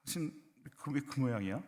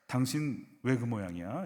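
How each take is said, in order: First: Mildly cold, softer question; slightly icy. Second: Slow, mildly cynical question; slightly cynical. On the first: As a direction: ask with a slight chill. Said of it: "약간 싸늘하게 하세". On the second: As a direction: ask slowly with a touch of cynicism. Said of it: "약간 시니컬하게". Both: Shown as a demonstration.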